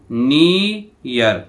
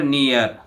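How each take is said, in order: First: "नियर" very slowly in two parts, नी, यर; split into sounds. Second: Said in the usual way. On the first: Shown as a demonstration. Teacher showing both vowel sounds, "नियर" slowly split as नी-यर. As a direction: stretch the ee in "नियर", break, then यर. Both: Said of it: "ई ए की ध्वनि आ रही है".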